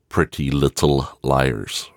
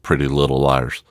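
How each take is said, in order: First: The consonants are clearly pronounced. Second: The consonants are skipped over.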